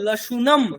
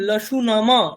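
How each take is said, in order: First: The word ends on a bare m sound. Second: The final m carries a full vowel after it. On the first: The speaker calls it right. "বলবো লসুনম" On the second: The speaker calls it wrong. "এরকম বলবো না"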